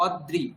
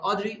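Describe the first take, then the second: First: "অদ্রি" as od-dri, doubled d; separated sounds. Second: "অদ্রি" as o-dri, first vowel open; joined sounds. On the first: Teacher recaps rophola, d split off. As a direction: hold d in "অদ্রি" before dri. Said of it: "দ এবং র আলাদা বললাম". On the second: Teacher recaps ri-kar, sounds joined. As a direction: run d straight into ri in "অদ্রি". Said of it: "একসঙ্গে বললাম". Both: Shown as a demonstration.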